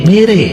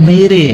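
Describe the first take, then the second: The two takes are said the same way.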